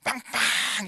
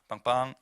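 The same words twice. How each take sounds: First: It is said loudly and urgently. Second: It is said gently and lightly.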